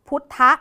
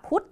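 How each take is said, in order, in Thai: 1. หลังพยัญชนะตัวสุดท้ายจะมีเสียงอะกึ่งเสียงสั้นตามมา 2. คำนี้จบชัดที่พยัญชนะตัวสุดท้ายเลย (1) "ก็อาจจะออกเสียงอะกึ่งเสียงตรงพุทธะ" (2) "คำนี้ก็ต้องอ่านว่าพุทธเฉยๆ"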